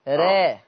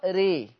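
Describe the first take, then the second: First: The vowel after r sits between a and e. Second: The vowel after r leans strongly toward ee. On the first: "ولو انا هقلل راء" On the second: "ولو انا هعمل امالة كبرى ري"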